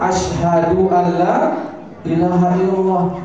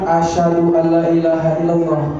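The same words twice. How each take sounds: First: Asyhadu and an are said as separate words. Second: Asyhadu and an run together as asyhadun. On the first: It means bearing witness. The speaker calls it right. "yang betul itu adalah" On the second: It sounds like the word for lion. The speaker calls it wrong.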